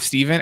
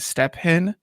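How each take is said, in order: First: The middle is said as a v sound. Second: The middle is said as separate p and h. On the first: It is the name's usual pronunciation. "instead of Steven" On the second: It is read letter by letter. "if you read it literally, would be pronounced as Step Hen"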